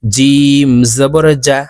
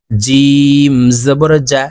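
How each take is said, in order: First: জিম জবর জা repeated slowly, clear জ; slow model take of জিম জবর জা; jim from mid-tongue. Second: জিম said slowly, জবর জা drawn out; slow, careful drill of জিম জবর জা; jim from mid-tongue. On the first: Teacher repeating for students: slow জিম জবর জা. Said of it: "কারণ জিমের মাখরাজ জিব্বার মধ্যখান থেকে হবে". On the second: Teacher drilling students: slow, careful জিম জবর জা. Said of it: "জিম হরফ জিব্বার মধ্যখান থেকে উচ্চারণ হবে". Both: Shown as a demonstration.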